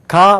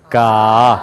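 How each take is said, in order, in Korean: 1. 목소리는 목구멍 위쪽에서 나와요. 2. 목소리는 목 아래 깊은 곳에서 울려요. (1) "못 내요" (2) "그렇게 해야지 맞아요"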